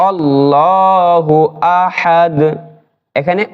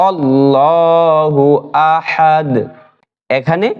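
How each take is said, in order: The two takes are said the same way.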